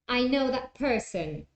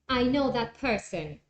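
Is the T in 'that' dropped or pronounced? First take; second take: dropped; dropped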